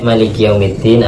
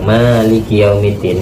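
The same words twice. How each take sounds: First: The vowel after the m is short. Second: The vowel after the m is long. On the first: It means the one who reigns over the Day of Judgment. "kalau mimnya dibaca pendek" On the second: It means the one who owns all affairs of the Day of Judgment. "mimnya panjang"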